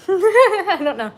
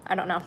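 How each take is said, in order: First: High, slow laughing repeat. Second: Said in the usual way. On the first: Real, not acted. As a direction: laugh it out, drawn out. Laughing at herself mid-bite. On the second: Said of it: "How am I eating and talking".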